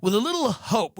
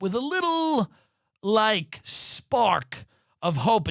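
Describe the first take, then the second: First: Said in the usual way. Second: Mock hopeful. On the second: Shown as a demonstration. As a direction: savour the tiny hope mockingly.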